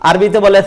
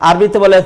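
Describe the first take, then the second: The two takes are said the same way.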